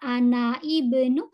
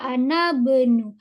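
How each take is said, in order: First: The i vowel is pronounced at the start of ibnu. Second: The i vowel is dropped, linking ana into bnu. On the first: The speaker calls it wrong. "Kita tidak mengatakan ana ibnu" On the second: The speaker calls it right. "Jadi kita baca ana benu"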